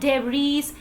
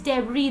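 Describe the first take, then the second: First: The word ends with an S sound. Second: The word ends without an S sound. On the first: The speaker calls it wrong. "It is not debris" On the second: The speaker calls it right. "There is no sound like sir while you pronounce it debris"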